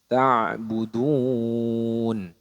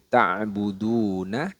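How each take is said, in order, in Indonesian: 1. Kata itu diakhiri dengan konsonan. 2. Kata itu diakhiri dengan vokal. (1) "menjadi ta'budun" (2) "huruf hidupnya disukunkan"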